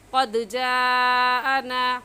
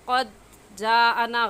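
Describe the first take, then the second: First: The d sound bounces back with a slight echo. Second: The d sound stops dead without an echo. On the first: The speaker calls it right. "सही है कद जा आना। कद दाल की आवाज़ वापस पलट कर आए" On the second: The speaker calls it wrong. "कद जा आना गलत है"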